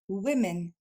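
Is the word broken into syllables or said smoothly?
smooth. The word is said quickly in one go. "Plus rapidement"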